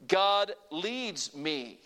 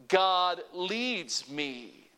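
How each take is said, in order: First: Very slow, each word spaced; slow call to repeat. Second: Even slower, words stretched; slow call to repeat. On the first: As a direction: draw it out so they can follow. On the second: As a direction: lead them word by word. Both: Shown as a demonstration. Preacher slowly leading the congregation's response. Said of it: "Say it with me".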